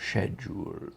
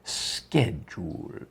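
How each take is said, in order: First: It is said with a British pronunciation. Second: It is said with an American pronunciation. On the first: "in England we would say" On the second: "in America you say"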